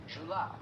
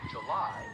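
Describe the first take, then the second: First: July with the stress moved onto JU; stress on first syllable. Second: Said in the usual way. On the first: Shown as a demonstration. Teacher showing Southern usage, July stressed on the first syllable. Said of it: "we'll say July". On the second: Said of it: "So instead of".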